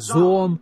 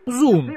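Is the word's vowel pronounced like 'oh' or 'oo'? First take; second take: oh; oo. First: The vowel sounds like 'oh'. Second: The vowel sounds like 'oo'. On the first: "Его можно произнести зон" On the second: "Зун, я сказал бы"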